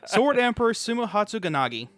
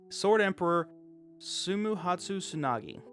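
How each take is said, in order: First: The name is read at a quicker pace. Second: The name is read at a slower pace.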